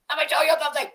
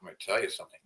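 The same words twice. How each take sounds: First: Much higher put-on character voice; mock high cartoonish voice. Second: Said in the usual way. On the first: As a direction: squeak it out in a silly voice. Same line said twice.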